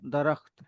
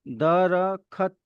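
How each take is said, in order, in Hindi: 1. kh की ध्वनि हल्की होती है और उसके बाद कोई स्वर नहीं होता। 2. kh की ध्वनि के बाद एक पूरा स्वर आता है। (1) "दरख्त है, तो वो ख की साउंड बहुत कम है वहां पे" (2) "तो दरखत नहीं है"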